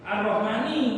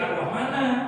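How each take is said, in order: First: The word ends in an i vowel. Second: The word ends in an a vowel. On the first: The speaker calls it right. "Coba Ar-Rahmani kuduni" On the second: The speaker calls it wrong. "tidak boleh Ar-Rahmana"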